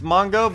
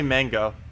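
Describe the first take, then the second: First: The first vowel is an 'o' sound, Mongo. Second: The first vowel is an 'a' sound, mango. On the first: The speaker calls it right. "Everyone's saying it's Mongo" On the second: The speaker calls it wrong. "I say mango because it's like a fruit"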